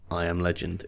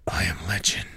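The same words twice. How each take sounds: First: Flat, low and downbeat; quiet resigned delivery. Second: Low, whispered realization; hushed grim whisper; whispered recognition. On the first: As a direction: say it like defeat. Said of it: "in a very, very downbeat voice". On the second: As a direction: breathe it out, low and resigned. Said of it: "a sort of gravelly voiced recognition". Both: Shown as a demonstration.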